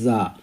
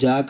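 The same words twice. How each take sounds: First: It begins with a z sound. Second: It begins with a j sound. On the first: The speaker calls it right. "జా అనే సౌండ్తో దీన్ని ఉచ్చరించాలి" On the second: The speaker calls it wrong. "ఇది జా కాదండి"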